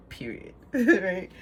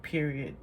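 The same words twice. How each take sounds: First: Period said through a laugh; chuckling at the pun on period. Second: Said in the usual way. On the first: Shown as a demonstration. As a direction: laugh as the double meaning lands. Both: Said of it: "In both sense".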